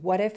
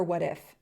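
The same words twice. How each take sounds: First: Anxious, pressing question; short demo of fear's tone; fearful what-if. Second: Gentler, open wondering; short demo of intuition's tone; intuitive what-if. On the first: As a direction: press it with worry. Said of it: "Same question". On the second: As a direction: offer it kindly as a possibility. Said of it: "Totally different tone". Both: Shown as a demonstration.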